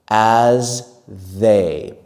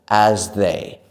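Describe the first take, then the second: First: The phrase is said slowly and carefully. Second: The phrase is said quickly and smoothly.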